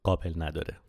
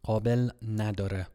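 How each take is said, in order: First: قابل نداره spoken clearly as a model, stress on قابل; demonstrating the phrase. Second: Learner repeating قابل نداره with a k in قابل; repeating the phrase. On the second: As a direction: echo قابل نداره, stress on قابل. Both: Shown as a demonstration. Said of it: "the phrase that you need to be aware of".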